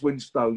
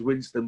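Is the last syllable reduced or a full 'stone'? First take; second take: full stone; reduced. First: The last syllable is a full 'stone'. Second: The last syllable is reduced to 'stun'. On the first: The speaker calls it right. "but it's Winstone" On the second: The speaker calls it wrong. "I get lazy at times and it's, it comes out as Winston"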